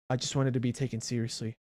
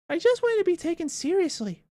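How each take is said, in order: First: It is read in the speaker's own plain voice. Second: It is read in a put-on Spooky voice.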